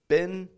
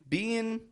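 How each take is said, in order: First: The vowel is short, like 'bin'. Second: The vowel is long, like 'bean'. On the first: "Been super American sounding" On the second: "Being more British English"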